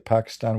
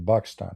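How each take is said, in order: First: The word begins with a P sound. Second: The word begins with a B sound. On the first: This is the usual non-Arabic way. "we don't say Pakistan" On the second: This is how Arabic speakers say it. "we say Pakistan, right? ... Because in Arabic we don't have the letter P"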